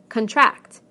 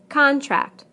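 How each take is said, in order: First: The stress is on the second syllable. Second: The stress is on the first syllable.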